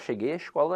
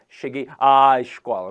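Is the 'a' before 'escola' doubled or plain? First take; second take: plain; doubled. First: The 'a' before 'escola' is short and plain. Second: The 'a' before 'escola' is drawn out, doubled. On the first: The crase is not marked in speech. The speaker calls it right. "da mesma forma que cheguei à casa" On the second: The crase is marked in speech. The speaker calls it wrong. "eu não colocava, é, ... não fazia isso"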